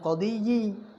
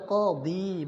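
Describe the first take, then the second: First: The word ends with an extra 'yi'. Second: The word ends simply in 'di'. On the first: The speaker calls it wrong. "bukan qadiyi" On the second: The speaker calls it right. "Tetap dibaca qadi"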